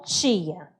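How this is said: It is said with a northern Brazilian accent. "pensando que eu sou do norte, eu falo tia"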